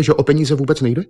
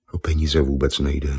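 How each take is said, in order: First: Higher, louder incredulous repeat; disbelieving echo. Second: Said in the usual way. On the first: Acted. Miss Nippon repeating Argon's words, higher and incredulous. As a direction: toss his words back in disbelief.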